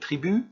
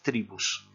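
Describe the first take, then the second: First: The final S sound is silent. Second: The final S sound is clearly pronounced. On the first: This is the French word. "il y a un S à la fin, mais qui ne se prononce pas" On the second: This is the Spanish word. "En espagnol, il se prononce"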